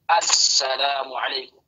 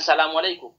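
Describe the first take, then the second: First: It starts with a clear glottal 'a' sound. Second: It starts directly with the 's' sound. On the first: It keeps the definite article. The speaker calls it right. "yang pertama kali keluar adalah suara hamzah" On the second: It drops the definite article. The speaker calls it wrong.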